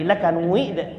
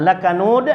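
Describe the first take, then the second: First: It is read with a West Sumatran vowel glide. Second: It is read with standard Arabic vowels.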